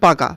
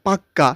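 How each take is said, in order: First: The middle k sound is short and single. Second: The middle k sound is doubled and held. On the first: "যেমন পাকা" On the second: "জোর দেওয়ার জন্য কি বলে পাক্কা"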